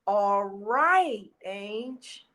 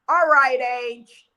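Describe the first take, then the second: First: It sounds soft and gentle. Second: It sounds brisk and urging. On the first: Take your time, but keep going. "Mom was giving me the okay to grieve" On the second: Get up and move on now. "that first one was like, "All right, let's go, let's go.""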